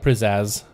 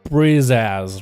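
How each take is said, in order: First: The name begins with a P sound. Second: The name begins with a B sound. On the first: "With a P" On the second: "pronounce the M P like B"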